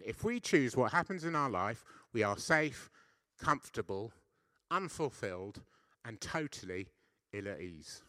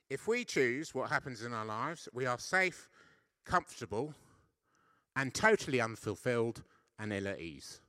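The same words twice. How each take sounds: First: Insistent repeat, louder, with weight on safe; repeated for emphasis. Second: Said in the usual way. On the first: Shown as a demonstration. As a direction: say it again, hammering each word. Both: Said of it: "I'll say that again".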